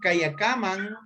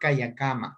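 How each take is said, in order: First: The word ends with an n sound. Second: The word ends with a vowel sound. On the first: This form is used in certain areas. "con N" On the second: This form is used in other areas. "en algunas partes únicamente"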